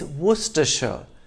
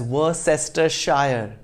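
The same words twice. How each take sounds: First: The word is said with few, shortened syllables. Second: The word is said with many full syllables. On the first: The speaker calls it right. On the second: The speaker calls it wrong. "do not pronounce it as"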